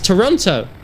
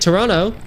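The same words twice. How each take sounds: First: Both T sounds in the word are clearly pronounced. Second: The second T sound in the word is dropped. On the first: "the T's are written. It's there. There's like, there's two of them" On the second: "Apparently you don't pronounce the T's"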